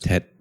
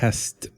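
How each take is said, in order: First: The S drops, leaving only a final T. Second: The word ends with an S-T cluster. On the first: "they don't put S and T together" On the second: "test becomes"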